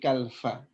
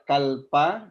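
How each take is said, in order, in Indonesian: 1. Konsonan setelah 'kal' itu bunyi F. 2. Konsonan setelah 'kal' itu bunyi P. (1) "tapi kalfa" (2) "tidak kalpa"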